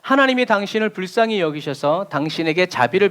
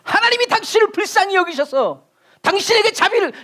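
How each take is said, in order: First: It is said in a calm, gentle tone. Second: It is said in a fierce, dramatic tone. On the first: It is a kind wish for mercy. "저는 이렇게 얘기하잖아요" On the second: It is a heated rebuke about lacking faith. "그날 베드로의 톤으로 얘기하면"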